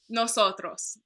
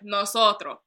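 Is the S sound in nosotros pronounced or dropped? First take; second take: pronounced; dropped. First: The S sounds are clearly pronounced. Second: The S is dropped, Dominican style.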